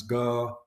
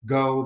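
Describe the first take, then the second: First: "go" with a Yorkshire pure O; long Yorkshire monophthong in "go"; Yorkshire accent. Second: Said in the usual way. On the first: Shown as a demonstration. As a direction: say "go" as in Yorkshire, no glide. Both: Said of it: "But certainly in Yorkshire".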